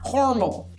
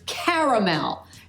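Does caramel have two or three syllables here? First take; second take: two; three. First: It is said with two syllables, middle vowel dropped. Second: It is said with three syllables, middle vowel kept. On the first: The speaker calls it wrong. "not caramel" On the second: The speaker calls it right. "enormous letter A in the middle of the word caramel"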